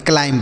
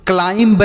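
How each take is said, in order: First: "क्लाइम" ending on M, no B; silent B. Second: "क्लाइंब" with an audible B after the M; "क्लाइंब" ending on a released B; wrong, sounded B. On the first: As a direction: say "क्लाइम" with the final B left silent. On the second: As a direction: demonstrate the mistake: pronounce the final B in "क्लाइंब". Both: Shown as a demonstration. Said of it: "यहाँ पर भी बी silent है".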